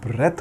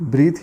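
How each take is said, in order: First: The vowel is a short e sound. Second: The vowel is a long ee sound. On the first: The speaker calls it right. "इसको ब्रेथ बोला जाता है" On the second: The speaker calls it wrong. "Mostly लोग इसको भी ब्रीथ ही बोलते हैं, जो कि गलत है"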